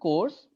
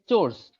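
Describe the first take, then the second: First: The word begins with a k sound. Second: The word begins with a ch sound. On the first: The speaker calls it wrong. "Actually, it's not course" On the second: The speaker calls it right. "It's chores"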